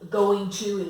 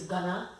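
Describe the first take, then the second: First: Both words are said fully and separately. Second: The words are blended into one reduced word. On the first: "going to is gonna" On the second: "we say like going to is gonna"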